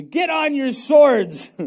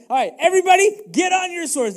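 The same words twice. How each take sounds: First: Louder, slow, deliberate command; David's measured command to arm; slow commanding order. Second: Much higher, louder battle call; David shouting his men to arms; rallying shout. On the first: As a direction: lay each word down like an order. David orders his men to arm. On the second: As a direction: rouse the whole troop. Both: Acted.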